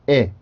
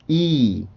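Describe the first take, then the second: First: The vowel is short and clipped. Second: The vowel is long and drawn out. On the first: "짧게 끊어주시면 되죠" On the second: "길게 입술을 넓혀준 다음에"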